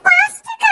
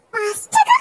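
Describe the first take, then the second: First: Appalled by the price, voice jumps up; outraged disbelief. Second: Said in the usual way. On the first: Acted. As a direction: shriek the price back in shock.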